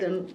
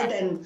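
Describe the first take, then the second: First: The name starts with a soft, light sound. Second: The name starts with a strong, forceful sound. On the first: This is how the name is said in English. "So in English, well, it's a bit soft" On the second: This is how the name is said in Arabic. "in Arabic, it's completely يعني Aden, like this, very strong"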